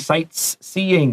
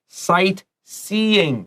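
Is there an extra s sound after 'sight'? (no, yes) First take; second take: yes; no. First: An extra s sound is added after sight. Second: Sight runs straight into seeing, no extra s. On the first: The speaker calls it wrong. "Don't say sightseeing. That's wrong" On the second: The speaker calls it right. "No S in this"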